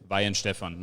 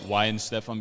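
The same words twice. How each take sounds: First: The name begins with a V sound. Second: The name begins with an English W sound. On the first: It is the original German version of the name. "it is Weihenstephan, like the American V" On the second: It is the Americanized version of the name. "we call it Weihenstephan because it's easier to pronounce for Americans"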